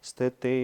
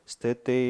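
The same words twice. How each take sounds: Both takes have the same delivery.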